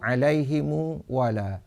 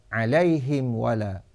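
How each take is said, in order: First: The h has an i vowel; m adds u. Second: The h has an i vowel; m has none. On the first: "kasrah ha dan silah mim jamak dengan waw" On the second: "kasrah ha dan iskan mim jamak"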